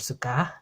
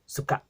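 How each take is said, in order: First: The final vowel ends openly without a catch. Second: The final vowel is cut off by a glottal stop. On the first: The speaker calls it wrong. "or suka" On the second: The speaker calls it right. "You cut off that air at the end"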